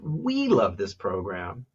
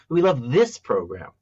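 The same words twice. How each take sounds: First: The stress falls on the word "we". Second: The stress falls on the word "this". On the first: It is about who loves the program. "one is about who" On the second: This program is preferred over a different one. "which makes it sound like compared to a different one"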